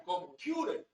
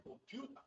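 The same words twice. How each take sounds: First: Mock-English "Computer", com-PYU-rer; babbled English. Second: "computer" softly, ending in an open "ta"; mock variant of "computer", com-PYU-ta; babbled English. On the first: Lecturer mimicking announcers' versions, "Computer" in babbled English. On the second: Lecturer mimicking another announcer, "computer" as babbled com-PYU-ta. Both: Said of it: "es producto del balbuceo del subdesarrollado".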